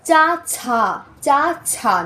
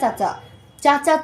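First: The second syllable has an aspirated ch sound. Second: The second syllable has an unaspirated ch sound. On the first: The speaker calls it right. "দুইটা কিন্তু চ না" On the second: The speaker calls it wrong. "Not চাচা চাচা"

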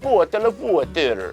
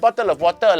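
First: It is spoken with a Russian accent. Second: It is spoken with a Singaporean accent. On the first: "รัสเซียหน่อยไหม" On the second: "ไปเจอสิงคโปร์"

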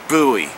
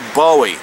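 First: The first syllable sounds like 'boo'. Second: The first syllable sounds like 'boh'. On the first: The speaker calls it wrong. "when they changed the spelling to B-O-O-W-E-E, I'll call it Bowie" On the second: The speaker calls it right. "it's spelled like it should be Bowie"

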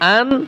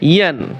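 First: The syllable starts directly with a vowel. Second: The syllable starts with a y sound. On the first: The speaker calls it wrong. "এই ইয়া দুই জবর আন বলে অনেকে" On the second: The speaker calls it right. "ইয়া দুই জবর ইয়ান উচ্চারণ হবে"

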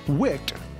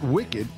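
First: It is said the way the sheet name is. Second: It is said like the ordinary word for evil. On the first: It refers to sheets that wick moisture away. The speaker calls it right. "the name of the sheets, wicked" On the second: It means evil. The speaker calls it wrong. "not wicked"

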